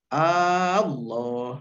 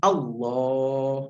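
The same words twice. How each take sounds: First: The opening vowel is drawn out long. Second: The opening vowel is kept short. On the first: It turns the word into a question. The speaker calls it wrong. "atau Allah gitu ya, tidak boleh" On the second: It is a statement, not a question. The speaker calls it right. "Harus Allah gitu"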